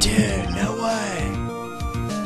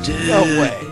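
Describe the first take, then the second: First: It is said in a surfer dude voice. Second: It is said in a normal voice.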